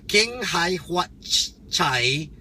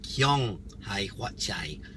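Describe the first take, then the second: First: The first word is said as keng. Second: The first word is said as kyong. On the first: The speaker calls it wrong. "not Keng" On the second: The speaker calls it right.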